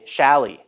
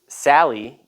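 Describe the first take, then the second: First: The first sound is a lisped s. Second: The first sound is a clear s. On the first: The speaker calls it wrong. "maybe a lisp ... they say Shally" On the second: The speaker calls it right. "instead of saying"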